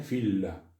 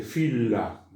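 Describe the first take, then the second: First: Said in the usual way. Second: "fila" slowly, both l sounds held apart; double l split. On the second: Shown as a demonstration. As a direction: stretch fila so each l is heard. ("fila" lento, con las dos eles separadas) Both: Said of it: "se pronuncian como separadas".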